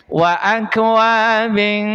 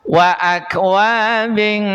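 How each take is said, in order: No difference in how they are said.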